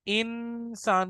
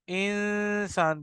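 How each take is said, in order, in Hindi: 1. "न" की आवाज़ पूरी और साफ़ है। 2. "न" की आवाज़ नाक की गुनगुनाहट में छुपी है। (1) "इंसान नहीं कहना" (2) "इंसान कहना है। ये आवाज़ इख्फा की।"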